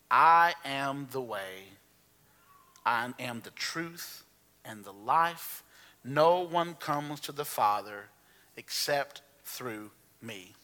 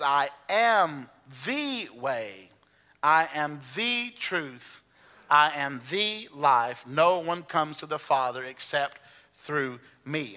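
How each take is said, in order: First: Slow, with "the" weighted in each phrase; slow emphatic reading. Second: "the way", "the truth", "the life" with "the" drawn out, very slow; stress on THE. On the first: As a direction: lean on "the" in every clause, slowly. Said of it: "that emphasis is mine". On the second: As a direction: slowly hit "the" before way, truth and life. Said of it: "And that emphasis is mine, that word "the". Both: Shown as a demonstration.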